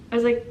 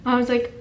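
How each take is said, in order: Both takes have the same delivery.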